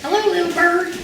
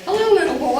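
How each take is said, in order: First: Put-on high, louder small child greeting; little boy's voice. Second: High, louder parrot squawk of "Hello". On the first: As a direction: squeak "Hello" like a four-year-old boy. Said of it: "Greg said to the bird". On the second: Retold or imitated. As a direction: answer like the parrot, pitched up. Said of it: "And the bird said".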